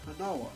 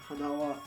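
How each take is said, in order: First: The pitch rises, then drops on wa. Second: The pitch rises and stays high on wa. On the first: It means nose. "it still like does this rise in pitch, but then it drops for the particle" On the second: It means flower. "the particle, in this case wa, stays up because it's heban"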